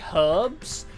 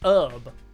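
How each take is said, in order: First: The word begins with an audible h sound. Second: The word begins with a vowel, no h. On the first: This is how it is said in the UK. "in the U K, we only ever say herbs" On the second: This is how Americans say it. "apparently Americans pronounce herb"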